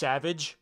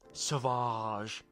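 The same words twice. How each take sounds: First: It is said as the ordinary English word. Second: It is said with a fancy, unusual pronunciation. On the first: "his name is just Savage" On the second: "they just pronounce it in a fancy way"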